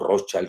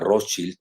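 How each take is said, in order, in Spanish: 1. Se dice a la manera del inglés americano. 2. Se dice a la manera alemana. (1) "o en inglés estadounidense" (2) "si lo pronuncian en alemán"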